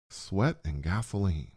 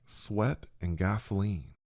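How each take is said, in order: Both takes have the same delivery.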